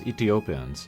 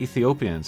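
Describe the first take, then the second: First: The middle consonant is a plain T sound. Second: The middle consonant is a TH sound.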